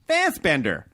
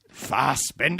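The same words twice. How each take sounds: First: The stress is on the first syllable. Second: The stress is on the second syllable.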